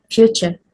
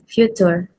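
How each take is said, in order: First: Future with a ch, FYOO-cher; correct pronunciation. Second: Future with a hard t, FYOO-toor; student's mispronunciation. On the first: Shown as a demonstration. Teacher giving the glide chew, future correctly pronounced. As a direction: soften the t of future to ch. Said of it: "The correct pronunciation is". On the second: Retold or imitated. Teacher showing how the student said future, mispronounced. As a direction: keep a plain t in future. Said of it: "the student pronounced this as".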